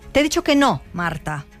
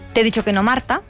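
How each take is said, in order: First: A pause separates "no" from "Marta". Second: No pause; "No Marta" sounds like a name.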